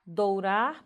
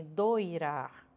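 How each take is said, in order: First: "Dourar" lento, com OU claro; variante com OU. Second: "doirar" lento, com OI claro; variante com OI. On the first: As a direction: marque o U de "Dourar". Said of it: "ora grafado com ou". ("Dourar" dito dou-rar) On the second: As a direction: marque o I de "doirar". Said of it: "ora vou ter grafado com oi". ("doirar" dito doi-rar) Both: Shown as a demonstration.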